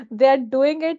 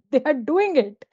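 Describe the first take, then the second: First: \"they\" stressed at the start. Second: \"doing\" stressed, pitch falling. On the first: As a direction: lean on \"they\", not \"doing\". Repeat with new focus on they. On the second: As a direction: hit the word \"doing\". Contrast: not telling them, they do. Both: Shown as a demonstration.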